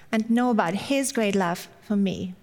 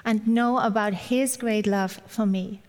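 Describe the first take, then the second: No difference in how they are said.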